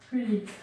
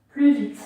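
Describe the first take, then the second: First: Said in the usual way. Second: Urging faster. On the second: Shown as a demonstration. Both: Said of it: "Et on va plus vite".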